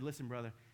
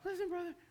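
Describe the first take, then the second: First: It is said in a firm, manly voice. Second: It is said in a weak, unmanly voice.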